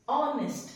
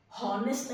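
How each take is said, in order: First: "ऑनेस्ट" said with no h, opening straight on the vowel; "ऑनेस्ट" vowel first, never "हॉनेस्ट"; silent h. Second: "हॉनेस्ट" with a breathy h at the start, the wrong way; "हॉनेस्ट" with a spoken h, as it should not be; wrong h sound. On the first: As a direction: start "ऑनेस्ट" on a clean vowel, no breath before it. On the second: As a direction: add a clear h before "हॉनेस्ट" to show the mistake. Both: Shown as a demonstration. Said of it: "हॉनेस्ट नहीं होता है".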